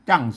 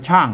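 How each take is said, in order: First: It begins with an unaspirated j sound. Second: It begins with an aspirated ch sound. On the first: This is the Northern Thai reading. "อันเมืองเปิ้นอ่านว่าจ้าง" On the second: This is the Central Thai reading. "เปิ้นไทยเปิ้นอ่านว่าช่าง"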